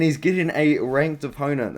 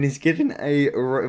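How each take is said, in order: First: Said in the usual way. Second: Voice crack. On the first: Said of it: "That was a great voice crack". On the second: Real, not acted. Fight preview broken off by an accidental voice crack. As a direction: voice cracks mid-word. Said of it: "voice crack".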